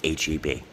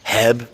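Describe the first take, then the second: First: It is said as three separate letters. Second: It is said as a single word. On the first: The speaker calls it right. "It's H E B" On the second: The speaker calls it wrong. "don't say Heb to a Texan because they'll get very upset"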